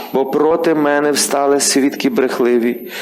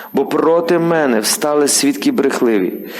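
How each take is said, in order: Both takes have the same delivery.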